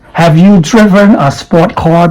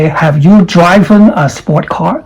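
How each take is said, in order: First: Driven has a short i vowel. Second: Driven has the long vowel of drive. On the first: The speaker calls it right. "This is rip, drip, driven" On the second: The speaker calls it wrong. "Don't say, ... That's wrong"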